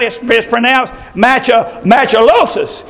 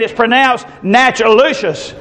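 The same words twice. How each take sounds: First: Machilosis said as "match-uh-LOH-sus"; correcting with "match-uh-LOH-sus" for Machilosis; husband's pronunciation. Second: Natchitoches drawn out slowly, ending in "LOO-shus"; slow, deliberate "natch-uh-LOO-shus" for Natchitoches; wife's pronunciation. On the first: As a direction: stumble on Macho-, then land Machilosis with a long "LOH". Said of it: "the man was saying". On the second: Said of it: "The wife was saying". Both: Retold or imitated.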